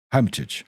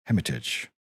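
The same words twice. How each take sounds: First: Hermitage with a clear h, said hermitage; corrected hermitage. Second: Hermitage with the h dropped, said ermitage; mispronounced hermitage. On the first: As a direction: hermitage with the h sounded. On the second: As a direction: hermitage starting on a vowel, no h. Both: Acted. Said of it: "Hermit-, hermitage".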